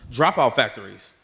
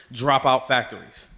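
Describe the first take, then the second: No difference in how they are said.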